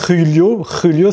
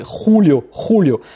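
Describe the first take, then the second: First: Julio said khu-lio, with tight French u; throaty J then French u in Julio; French U sound. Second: Julio said khou-lio, with rounded ou; throaty J then ou in Julio; Spanish U as ou. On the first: Teacher showing the mistake to avoid, Julio as khu-lio. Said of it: "C'est pas". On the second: Teacher correcting a learner, Julio said khou-lio. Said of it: "le U qui se prononce également ou". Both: Shown as a demonstration.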